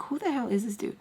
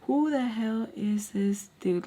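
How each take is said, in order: First: Said in the usual way. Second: Slow, drawn-out disbelief; incredulous. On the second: Retold or imitated. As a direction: stretch each word out in disbelief. Same thought repeated slowly, incredulous.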